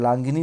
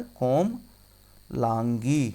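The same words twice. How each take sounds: First: लांगिनी with an extra ni at the end; wrong ending. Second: कोमलांगी very slow, split kom... laan-gi; correct ending. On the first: Teacher quoting the wrong form, extra ni on लांगिनी. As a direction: say लांगिनी as laan-gi-ni, three syllables. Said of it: "लांगिनी नहीं होता". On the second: Teacher answering for students, slow drawn-out कोमलांगी. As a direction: draw कोमलांगी out, finishing on long gi. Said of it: "क्या होता है?". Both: Shown as a demonstration.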